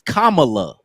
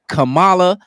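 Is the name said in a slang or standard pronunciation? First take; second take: standard; slang. First: The name is said with its standard pronunciation. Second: The name is said with a slang pronunciation. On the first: It is her real name. "Her real name is Kamala" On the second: It sounds like a girl from the neighborhood. "The way we say it ... we put slang on it"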